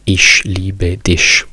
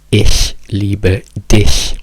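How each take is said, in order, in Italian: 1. Ich e dich finiscono con un suono sh. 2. Ich e dich finiscono con un leggero soffio gutturale. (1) "non ich liebe dich, che è quello che tutti gli stranieri dicono" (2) "in tedesco si dice"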